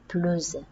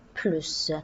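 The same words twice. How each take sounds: First: The word ends in a Z sound. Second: The word ends in an S sound. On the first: It links to a following vowel. "prononcer le S comme Z" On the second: The meaning is positive: more. "normalement on va prononcer le S"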